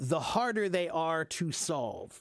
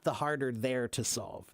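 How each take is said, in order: First: They are is said as two full words. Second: They are is shortened into one contracted word. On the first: The speaker calls it right. "you can say it just without the contraction" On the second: The speaker calls it wrong. "not the harder they're to solve. That's weird"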